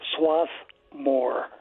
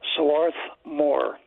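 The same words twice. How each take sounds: First: No R sound follows the first vowel. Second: An R sound follows the first vowel. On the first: This is how people commonly say the name. "colloquial pronunciation has it as Swarthmore" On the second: This is the official form of the name. "pronounced officially as Swarthmore"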